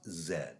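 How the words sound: The letter name is said the Canadian way. "but I am Canadian, this is pronounced Z"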